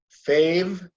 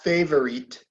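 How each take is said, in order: First: The word is said with two syllables. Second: The word is said with three syllables. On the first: The speaker calls it right. "Two syllables" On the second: The speaker calls it wrong. "No, no, not favorite"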